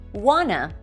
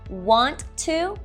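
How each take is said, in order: First: The words run together into one clipped form. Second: Both words are said fully and separately.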